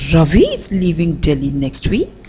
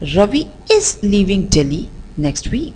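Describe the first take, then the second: First: The stress falls on the word Ravi. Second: The stress falls on the word is. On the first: "Let's again shift the stress to Ravi" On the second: "let's shift the stress on the word is"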